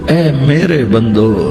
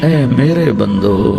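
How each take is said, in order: No difference in how they are said.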